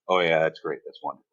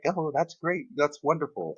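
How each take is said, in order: First: It sounds flat and uninterested. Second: It sounds warm and enthusiastic.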